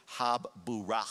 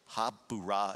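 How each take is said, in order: First: Habburah said slowly with a long held b, hah-BBOO-rah; habburah, stretched out with a doubled b; Hebrew word. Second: Habburah repeated short, hah-BOO-rah with the doubled b; Hebrew word. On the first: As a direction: habburah pronounced carefully in Hebrew, stress on the middle. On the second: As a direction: habburah said again quickly in Hebrew. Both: Shown as a demonstration. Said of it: "that word in the Hebrew is".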